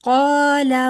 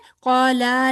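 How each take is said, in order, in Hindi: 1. L के बाद का स्वर छोटा रखा जाता है। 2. L के बाद का स्वर लंबा खींचा जाता है।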